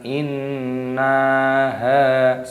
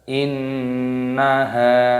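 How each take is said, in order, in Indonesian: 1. Suku kata na dibaca panjang. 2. Suku kata na dibaca pendek. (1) "bukan innaha, salah seperti itu" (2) "Yang benar innaha, jadi nanya dipendekkan"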